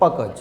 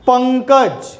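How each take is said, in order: First: The first syllable has no nasal sound. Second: The first syllable is nasal and weighted. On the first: "આ અનુસ્વાર જ્યારે નહોતું ત્યારે તમે આનું ઉચ્ચારણ કેવી રીતે કર્યું" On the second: "તમે પની ઉપર વજન આપ્યો"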